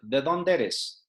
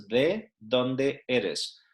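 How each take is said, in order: First: ¿de dónde eres? slurred quickly into a single word, as locals say it; run together as one word. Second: ¿de dónde eres? said slowly, each word separate, de stressed; slow and spelled out. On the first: Teacher shows how locals run the question together quickly. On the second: Teacher repeats the question slowly for beginners. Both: Shown as a demonstration. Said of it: "they wrap it up into a single word".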